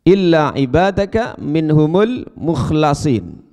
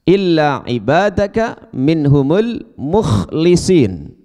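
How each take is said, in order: First: The vowel after the L is a. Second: The vowel after the L is i. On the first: They are the ones made sincere by God. "membaca dengan lam yang di fathah" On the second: They are the ones who make their worship sincere. "membaca dengan lam yang di kasroh"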